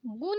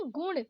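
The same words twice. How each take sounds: First: गुण ending in plain न; wrong dental N. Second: गुण ending in curled-tongue ण; correct retroflex ण. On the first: Teacher showing learners the mistake, dental-N गुण. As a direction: say गुण as गुन. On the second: Teacher correcting learners, retroflex गुण. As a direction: curl back for ण in गुण. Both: Shown as a demonstration. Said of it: "नहीं".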